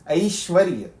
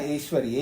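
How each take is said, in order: First: The first vowel is a gliding 'ai' sound. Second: The first vowel is a plain 'e' sound. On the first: The speaker calls it right. "ऐश्वर्य नहीं, ऐश्वर्य" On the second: The speaker calls it wrong. "आप लोग ऐश्वर्य बोलते हैं ना"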